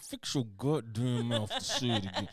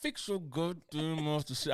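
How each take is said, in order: First: Laughing threat through clenched teeth; through gritted teeth. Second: Slow threat through clenched teeth; through gritted teeth. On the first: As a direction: grit your teeth and push the words. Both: Acted. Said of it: "I'm talking through my teeth".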